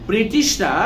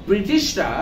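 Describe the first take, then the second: The two takes are said the same way.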